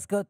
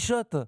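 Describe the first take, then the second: First: The name begins with an 'sk' sound. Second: The name begins with an 'sh' sound. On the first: The speaker calls it wrong. "on dit pas Scott" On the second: The speaker calls it right. "on dit Shot"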